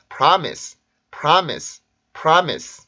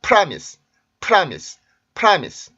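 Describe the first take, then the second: First: Promise의 모음 a에 강세, p는 가볍게; promise, 첫 모음에 강세를 실어서; right stress. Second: Promise의 첫 자음 p에 강세를 넣어 틀리게; promise, 프에 힘을 주는 학생식 실수; wrong stress. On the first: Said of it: "이런 식으로 발음을 합니다". (모음에 강세를 둔 올바른 발음) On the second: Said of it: "학생들이 이렇게 발음하는 경우가". (첫 자음에 강세를 준 잘못된 발음) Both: Shown as a demonstration.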